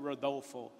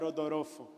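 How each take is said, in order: First: The name is said with an American English accent. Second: The name is said with a Japanese accent. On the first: "Se eu fosse ministrar na América" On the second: "Se eu fosse ministrar no Japão"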